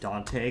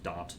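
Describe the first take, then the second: First: The final e is sounded as a syllable. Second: The final e is silent, one syllable. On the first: The speaker calls it wrong. "people pronounce it Dante, because that's how it's spelled" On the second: The speaker calls it right. "it's actually just Daunt"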